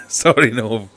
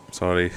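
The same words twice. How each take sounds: First: Laughing sorry. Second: Said in the usual way. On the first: Real, not acted. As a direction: laugh right through the word Sorry. Apologising twice, second with laugh.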